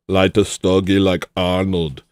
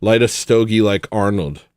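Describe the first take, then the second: First: Lightly voiced Austrian accent; a hint of an Austrian accent; Arnold impression. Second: Said in the usual way. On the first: A streamer trying an Austrian accent on a chat request. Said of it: "Sick impression, solid impression".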